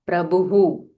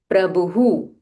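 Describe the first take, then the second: The two takes are said the same way.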